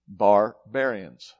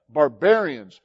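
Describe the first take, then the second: First: "barbarians" low and very slow, split after "bar"; syllables drawn apart. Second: Said in the usual way. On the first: Shown as a demonstration. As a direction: stretch "barbarians" to show the "bar" inside. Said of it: "that's where it came from".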